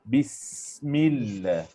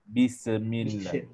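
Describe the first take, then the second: First: The s sound flows as a continuous hiss. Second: The s sound is bounced with a stop. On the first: The speaker calls it right. "kita mengalirkan desiran tu je" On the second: The speaker calls it wrong. "Jangan kita lantunkan dia. ... Dia tak boleh baca bismillah"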